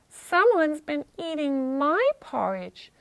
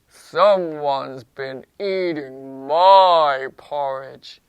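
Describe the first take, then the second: First: It is said in a medium-pitched voice. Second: It is said in a low-pitched voice. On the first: "in her medium voice" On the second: "in his low voice"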